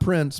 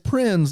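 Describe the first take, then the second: First: The name ends with a hissing s sound. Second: The name ends with a buzzing z sound. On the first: The speaker calls it wrong. "not Prince" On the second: The speaker calls it right. "it's Prinze"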